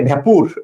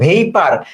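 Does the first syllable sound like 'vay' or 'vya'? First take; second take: vya; vay. First: The first syllable has a short 'a' vowel. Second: The first syllable has an 'ay' vowel. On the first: The speaker calls it wrong. "আমরা বলি অনেকে" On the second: The speaker calls it right. "এটা উচ্চারণটা খুব সুন্দর"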